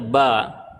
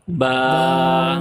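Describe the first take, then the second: First: The vowel is short, one beat long. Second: The vowel is long, held for two beats. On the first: "dia dibaca biasa saja ba" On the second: "maka menjadi panjang dua harakat"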